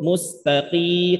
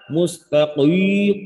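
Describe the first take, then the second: First: The q sounds only moderately thick. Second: The q sounds exaggeratedly thick and heavy. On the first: The speaker calls it right. "Jadi cukup" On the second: The speaker calls it wrong.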